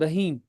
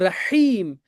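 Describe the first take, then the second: First: The h is a light, plain breath sound. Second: The h is breathy and made deep in the throat. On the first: It means a thirsty camel. The speaker calls it wrong. "जैसे सारे लोग बोलते हैं" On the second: It means the most merciful. The speaker calls it right. "it means the most merciful"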